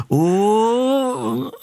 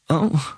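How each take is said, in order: First: High, rising crowd cheer; crowd roar. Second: Crowd cheer dying into confusion; confused crowd. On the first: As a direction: imitate an eager crowd's roar. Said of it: "this roar just turned into confusion". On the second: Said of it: "turned into confusion". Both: Retold or imitated.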